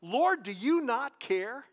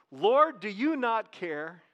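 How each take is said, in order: First: Slow, rising on Lord; stress on Lord. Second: Each word drawn out and weighed; slow emphatic reading. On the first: Preacher repeats Martha's words, stressing Lord slowly. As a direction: Lord lifted higher and slow. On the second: Preacher slowly repeats Martha's words to the congregation. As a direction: lay it out slowly for them to hear. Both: Shown as a demonstration. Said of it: "just look at that part of it".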